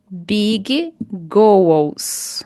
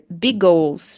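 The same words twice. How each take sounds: First: Spoken slowly with both G sounds separate. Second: Spoken smoothly with the two G sounds merged. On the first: "Eu falei devagar" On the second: "Você pode dizer big goals"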